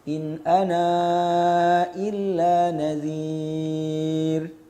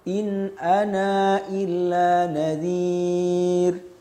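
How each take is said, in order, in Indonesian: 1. Vokal panjangnya dibaca empat ketukan. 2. Vokal panjangnya dibaca dua ketukan. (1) "isbat dengan tawassut" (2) "isbat dengan qasr"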